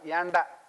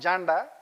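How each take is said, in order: First: The name starts with a Y sound. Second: The name starts with a J sound. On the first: The speaker calls it right. "It is pronounced as Yanda" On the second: The speaker calls it wrong. "It is not Janda"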